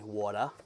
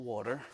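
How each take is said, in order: First: The R is dropped, in his natural accent. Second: The R in water is pronounced.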